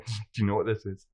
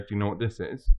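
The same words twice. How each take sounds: First: It is asked in a teasing, suggestive tone. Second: It is asked in a plain, straightforward tone. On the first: It hints at something rude. "Which automatically puts a dirty thought into their head" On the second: It is an innocent question. "They're not going to try anything funny"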